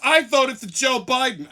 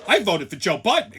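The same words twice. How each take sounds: First: Mocking shouted parody of her; loud sneering echo of her boast. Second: Mock-excited claim. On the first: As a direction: yell her boast back in mockery. Mocking the woman's proud claim. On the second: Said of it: "Excited that she fucked the country up".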